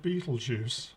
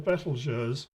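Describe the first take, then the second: First: The name sounds like the words 'beetle juice'. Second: The name is said in the speaker's own way. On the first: This is how many other people say the name. The speaker calls it wrong. "I don't think it should be pronounced Beetlejuice. That doesn't sound right at all" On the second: This is how the speaker says the name. The speaker calls it right. "What I call Betelgeuse"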